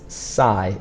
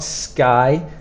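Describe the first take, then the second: First: The syllable begins with a plain S sound. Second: The syllable begins with an SK sound. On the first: The speaker calls it right. "So sci is pronounced as if it's just an S" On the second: The speaker calls it wrong. "It's not sky"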